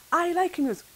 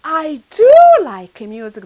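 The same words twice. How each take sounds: First: Said in the usual way. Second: Forceful, insistent "do"; stress on DO. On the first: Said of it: "That means yes and yes and yes". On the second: Shown as a demonstration. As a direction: hit the word "do" hard for emphasis. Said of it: "to highlight".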